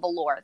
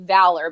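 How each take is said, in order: First: It sounds like the fabric velour. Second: It sounds like the word valor. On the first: This is how it actually gets said. "but I pronounce it velour. That's wrong" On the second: This is the intended name. "I intended for his name to be Valor"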